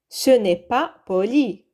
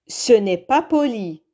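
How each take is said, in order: No difference in how they are said.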